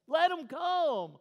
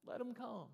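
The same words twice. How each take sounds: First: Drawn-out, high, very loud command; ticked-off shout, stretching each word; Jesus. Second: High but gentle, no shouting; tender repeat at normal volume; softened appeal. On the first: Ticked teacher ordering children let through, slow angry shout. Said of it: "he was ticked". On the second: Teacher welcoming the children to him, softened appeal. Same command repeated softly. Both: Acted.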